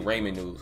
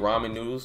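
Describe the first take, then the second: First: It is said with a country Mississippi pronunciation. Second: It is said with the standard pronunciation. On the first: The speaker calls it wrong. "I used to say ramen noodles, and nobody ever told me that was wrong" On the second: The speaker calls it right. "you know how you say ramen noodles? That's normal for you"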